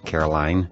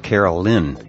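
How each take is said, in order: First: The last syllable sounds like 'line'. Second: The last syllable sounds like 'lin'. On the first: The speaker calls it wrong. "not uh, Caroline" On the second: The speaker calls it right. "I think the proper pronunciation of her name is Carolyn"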